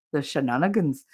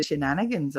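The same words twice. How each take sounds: First: Attempted Danish accent turned Irish. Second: Said in the usual way. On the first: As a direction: say shenanigans with a put-on Irish lilt. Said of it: "I just made it Irish".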